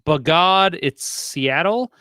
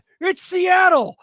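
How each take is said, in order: First: It is read in a plain speaking voice. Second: It is called like a booming wrestling announcer.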